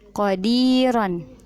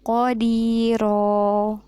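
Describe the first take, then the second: First: The word ends with an n sound. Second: The word ends on a lengthened vowel. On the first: The reading continues without a stop. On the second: The reader stops on this word.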